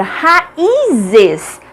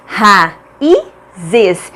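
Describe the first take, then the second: First: "raízes" with a high, stretched "í"; stretched stressed syllable. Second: "raízes" broken into ra... í... zes, pauses between; syllable by syllable. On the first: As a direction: lean long and high on the "í" of "raízes". ("raízes" com o "í" alongado e mais agudo) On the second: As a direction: sound out "raízes" in three separate syllables. ("raízes" silabado, com pausas: ra... í... zes) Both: Shown as a demonstration. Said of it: "Cada uma fica em uma sílaba diferente".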